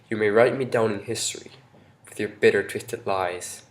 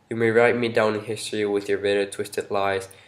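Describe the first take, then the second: First: It is read expressively with emphasized words. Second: It is read flatly with no emphasized words. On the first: The poem carries much more meaning. The speaker calls it right. "if I read it with tone" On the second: The words carry no meaning. The speaker calls it wrong. "read the first stanza with no tone and just fast and slow. Like I'm not gonna emphasize no word"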